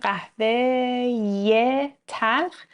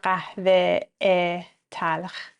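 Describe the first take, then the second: First: A 'ye' sound links the two words. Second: The two words are joined without a 'ye' sound. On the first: The speaker calls it right. "میگم قهوه ی تلخ که راحت تر باشه" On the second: The speaker calls it wrong. "نمیگم قهوه تلخ"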